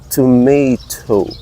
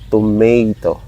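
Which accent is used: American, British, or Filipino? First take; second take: British; Filipino. First: It is said with a British accent, crisp T. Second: It is said with a Filipino English accent. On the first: "Very enunciated, the T" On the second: "Here in the Philippines, Filipinos uh, tend to say tomato"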